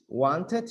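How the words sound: It is said with a British pronunciation. "Wanted is British"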